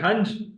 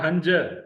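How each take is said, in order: First: The word ends on a consonant sound. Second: The word ends on a short vowel sound. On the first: The speaker calls it wrong. "was that hunch or hanja?" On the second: The speaker calls it right. "Hanja. Don't break that rule"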